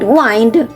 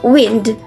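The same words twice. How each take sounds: First: The vowel is long, as in 'wine'. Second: The vowel is short, as in 'win'. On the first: It means to turn or twist. "pertains to turn or twist" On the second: It means moving air. "pertains to the movement of air"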